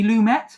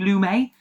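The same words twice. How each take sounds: First: The surname is said in an English way. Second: The surname is said in a French way. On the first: The speaker calls it right. "I think it's pronounced" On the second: The speaker calls it wrong. "assuming he was like French"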